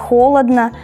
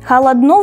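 First: The stress falls on the standard syllable. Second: The stress falls on a dialect, non-standard syllable. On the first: This is the common standard form. "вместо" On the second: This is how a regional dialect says it. "местный говор ... переставляет местами ударение"

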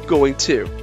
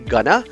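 First: The words are said fully and separately as 'going to'. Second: The words are reduced and run together as 'gonna'. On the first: The speaker calls it right. "Instead, we say going to" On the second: The speaker calls it wrong. "We don't say gonna"

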